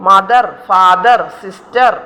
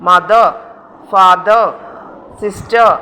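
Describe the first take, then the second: First: "മദർ, ഫാദർ, സിസ്റ്റർ" with final r sounded; wrong pronunciation. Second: "മദർ, ഫാദർ, സിസ്റ്റർ" ending in uh; spaced model "മദർ, ഫാദർ, സിസ്റ്റർ", open endings; silent r. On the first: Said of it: "അങ്ങനെ usage ഇല്ല". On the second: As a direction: drop each final r in "മദർ, ഫാദർ, സിസ്റ്റർ". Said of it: "അത് silent ആണ്". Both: Shown as a demonstration.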